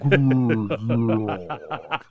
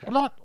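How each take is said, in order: First: It is said slowly. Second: It is said fast.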